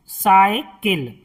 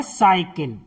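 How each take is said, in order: First: "साइकिल" slowly, split as "साइ, किल"; broken into parts. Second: Said in the usual way. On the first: Shown as a demonstration. Teacher helping learners write the word, slow split "साइकिल". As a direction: draw out "साइकिल" in two parts. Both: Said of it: "आपको लिखना है साइकिल".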